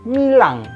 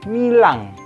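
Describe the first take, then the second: Both takes have the same delivery.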